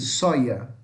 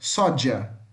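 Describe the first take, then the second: First: The middle consonant sounds like 'y'. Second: The middle consonant sounds like 'dj'. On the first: This is the way in Spain. "Já na Espanha vai falar com som de I" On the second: This is the Latin American way.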